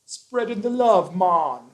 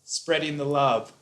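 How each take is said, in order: First: High, bright Jamaican accent. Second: Said in the usual way. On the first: Shown as a demonstration. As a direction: say it like a laid-back Jamaican. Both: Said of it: "That's my Jamaican accent".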